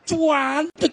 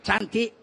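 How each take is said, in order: First: The word is said with strong, drawn-out emphasis. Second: The word is said flatly, without emphasis. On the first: It sounds truly beautiful. The speaker calls it right. "wih, cantik. Wah, itu baru mantap" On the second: It does not sound truly beautiful. The speaker calls it wrong. "nggak cantik itu"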